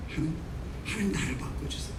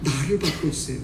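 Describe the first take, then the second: First: Whispered humble plea to God; whispered prayer. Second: Humble prayer. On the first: Worshipper whispering a humble plea to change, whispered. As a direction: breathe it as a hushed prayer. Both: Shown as a demonstration. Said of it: "이런 기도가 달라져요".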